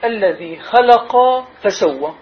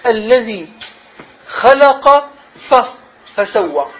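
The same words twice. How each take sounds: First: Slow reading. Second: Emphatic خلق before a falling فسوى; stress on خلق. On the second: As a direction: hit the word خلق, then let فسوى fall. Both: Shown as a demonstration. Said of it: "لاحظوا".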